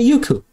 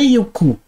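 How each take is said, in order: First: The name is said with a marked melodic intonation. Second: The name is said with a flat intonation. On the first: The speaker calls it right. "Ele entona o negócio" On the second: The speaker calls it wrong. "Não é Yuku"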